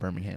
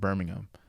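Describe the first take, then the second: First: It is pronounced the way Birmingham, Alabama says it. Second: It is pronounced the way the English city says it. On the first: This is the name as used in Alabama. The speaker calls it wrong. "instead of Birmingham" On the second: This is the name as used in England. The speaker calls it right. "that place is called Birmingham"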